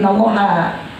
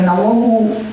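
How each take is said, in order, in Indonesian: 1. Kata ini diakhiri dengan vokal 'a'. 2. Kata ini diakhiri dengan vokal 'u'. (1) "tapi innallaha" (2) "bukan innallahu"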